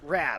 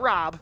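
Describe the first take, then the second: First: The vowel sounds like the one in 'cat'. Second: The vowel sounds like the one in 'cot'. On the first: The speaker calls it right. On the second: The speaker calls it wrong. "Not Rob"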